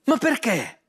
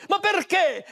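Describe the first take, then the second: First: Said in the usual way. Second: High, indignant "perché"; angry demand. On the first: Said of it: "mi hai preso in giro". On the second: Acted. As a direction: throw the why at him in anger. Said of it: "si arrabbiò moltissimo".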